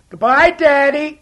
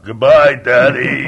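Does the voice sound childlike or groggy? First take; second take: childlike; groggy. First: It sounds like a child hollering. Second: It sounds like a groggy early-morning voice.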